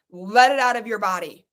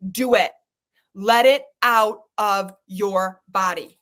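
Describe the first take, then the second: First: Said in the usual way. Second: Low firm push. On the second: Real, not acted.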